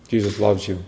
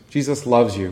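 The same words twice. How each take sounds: First: It is said in a grumpy, scowling tone. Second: It is said in a warm, friendly tone. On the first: The message comes across as unloving. The speaker calls it wrong. "with a frown, with a scowl, with their arms folded" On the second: The message comes across as good news. The speaker calls it right. "the best news"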